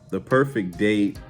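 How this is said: It is said in a smooth, sexy voice.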